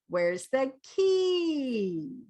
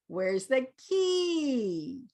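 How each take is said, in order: Both takes have the same delivery.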